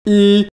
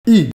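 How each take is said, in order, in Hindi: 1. पिच ऊँची और सपाट रहती है। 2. पिच ऊँचे से तेज़ी से गिरती है। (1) "फर्स्ट टोन में ई एक को कहते हैं" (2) "फोर्थ टोन में ई का मतलब है एक करोड़"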